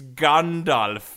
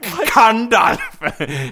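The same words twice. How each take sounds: First: The name begins with a G sound. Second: The name begins with a K sound. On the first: The speaker calls it right. "okay, it's Gandalf" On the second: The speaker calls it wrong. "I pronounced it like C"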